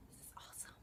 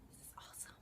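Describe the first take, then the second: First: Soft whispered repeat, almost silent. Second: A second fading whisper. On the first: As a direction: hush it like a secret echo. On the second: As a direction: breathe it out, trailing away. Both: Real, not acted. Whispered echo of own words.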